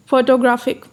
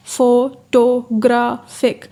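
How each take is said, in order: First: Said in the usual way. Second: photographic slowly split as फो-टो-ग्रा-फिक; syllable by syllable. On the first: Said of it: "उन्होंने मिसाल दिया है". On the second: Shown as a demonstration. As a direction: break photographic into four separate, slow syllables. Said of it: "इसमें जो third syllable है".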